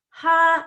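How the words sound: The syllable is said on a high pitch. "Higher pitch is like ha"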